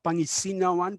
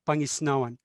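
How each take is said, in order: First: A vowel is heard between the s and n. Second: The s runs straight into the n. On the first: The speaker calls it wrong. "Not Pangisinawan" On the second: The speaker calls it right. "but Pangisnawan"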